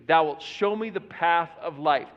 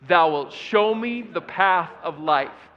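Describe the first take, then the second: First: Said in the usual way. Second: Slower, louder, with authority; more authority. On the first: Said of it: "say that first phrase with me". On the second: Shown as a demonstration. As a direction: proclaim it like a command. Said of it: "say it with a little bit more authority".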